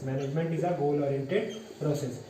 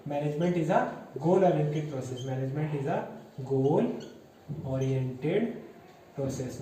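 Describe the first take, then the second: First: Said in the usual way. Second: Measured, broken up with pauses between chunks; word-by-word dictation. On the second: Shown as a demonstration. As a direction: dictate it to a class, pausing before each key word. Dictating the key point word by word. (रुक-रुक कर लिखवाते हुए)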